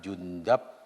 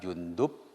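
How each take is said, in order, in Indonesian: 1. Vokal sebelum b terakhir adalah a. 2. Vokal sebelum b terakhir adalah u. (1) "ada tiga wajah membacanya" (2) "ada tiga wajah membacanya"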